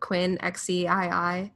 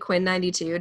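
First: The ending is spelled out as separate letters. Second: The ending is said as the number ninety-two. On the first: The speaker calls it wrong. "I'm going to pronounce this wrong" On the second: The speaker calls it right. "which is actually Quinn 92"

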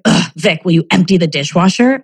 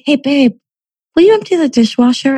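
First: The request sounds annoyed and irritated. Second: The request sounds warm and friendly.

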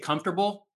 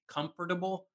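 First: The word is shortened, with syllables run together. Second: Every syllable is said fully and separately. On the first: This is the natural everyday pronunciation. The speaker calls it right. "I used to say comfortable" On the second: This follows the spelling rather than everyday speech. The speaker calls it wrong. "once I knew how it was spelled, I feel like now I always say comfortable, which is awkward and unnecessary"

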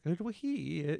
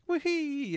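First: It is said in a deeper Luigi voice. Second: It is said in a higher Mario voice.

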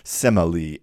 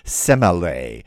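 First: The name is pronounced the modern English way. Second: The name is pronounced the classical Greek way. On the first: "as we might now say in modern English" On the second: "as her name would be in classical Greek"

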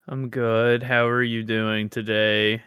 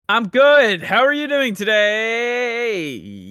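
First: It is said with low energy. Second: It is said with excessive, very high energy.

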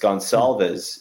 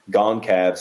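First: The name is said with an l sound. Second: The name is said without an l sound. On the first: The speaker calls it right. "it's Gonsalves is how you say the name" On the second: The speaker calls it wrong. "I'm saying Goncavs or something"

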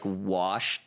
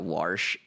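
First: The word is said in a standard accent. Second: The word is said in a St. Louis accent.

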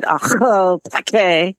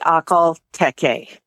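First: The name is said with a harsh, guttural, spitty sound. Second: The name is said smoothly, in an American accent. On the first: "Over in Russia, they add a lot of spit to it" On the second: "Most people in the United States say"

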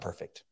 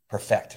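First: The stress is on the first syllable. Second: The stress is on the second syllable. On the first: It is the adjective, flawless. The speaker calls it wrong. "not perfect" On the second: It is the verb, to make complete. The speaker calls it right. "I see what you're saying there. Perfect, not perfect"

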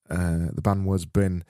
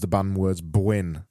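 First: The last word has no w-glide, like bin. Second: The last word has a w-glide, like bwin.

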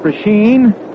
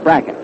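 First: The name ends with a long 'een' sound. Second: The name ends with a short 'en' sound. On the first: This is how many other people say the name. "A lot of folks call it Prasheen" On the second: This is how the player and his family say the name. "he says that he and his family call it Bracken"

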